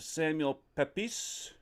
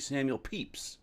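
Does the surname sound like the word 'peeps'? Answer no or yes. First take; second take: no; yes. First: The surname does not sound like 'peeps'. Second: The surname sounds like 'peeps'. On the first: The speaker calls it wrong. "I believe that's how you say it" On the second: The speaker calls it right. "it comes out like Peeps. So it's actually Samuel Pepys"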